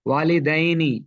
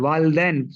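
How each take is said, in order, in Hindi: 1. 'l' के बाद छोटा 'i' स्वर आता है। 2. 'l' के बाद कोई स्वर नहीं बोला जाता। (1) "लाम पे कसरा है" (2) "सुकून पर, सुकून नहीं है"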